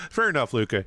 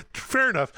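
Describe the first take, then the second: First: Said in the usual way. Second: Conceding high and amused, higher; high laughing concession. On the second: Real, not acted. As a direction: laugh it out, giving in.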